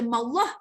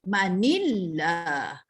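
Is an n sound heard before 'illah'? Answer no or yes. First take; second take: no; yes. First: No n sound; the words run straight together. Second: An n sound links into the next word. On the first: The speaker calls it wrong. "Kita tak boleh baca mallah" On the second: The speaker calls it right. "sebab itu kita kena baca manillah"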